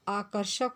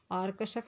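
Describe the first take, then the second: First: आकर्षक said aa-kar-shak, r before sh; आकर्षक, r then sh; correct form said. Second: आर्कषक said aar-ka-shak, r before k; wrong form आर्कषक with the r moved forward; आर्कषक, the mistake with r first. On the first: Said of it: "आकर्षक होता है". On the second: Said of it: "आर्कषक नहीं होता है". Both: Shown as a demonstration.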